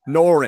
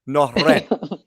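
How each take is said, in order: First: The R is said as a plain American R. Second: The R is rolled with a tongue trill. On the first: The speaker calls it wrong. "in America, as a redneck, it'd be Norin" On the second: The speaker calls it right. "but you got to roll it. It's Noren"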